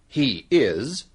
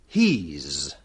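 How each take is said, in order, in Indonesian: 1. Dua kata terpisah diucapkan secara lengkap. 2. Kedua kata digabung menjadi satu suku kata pendek. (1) "Dan kita tidak mengatakan"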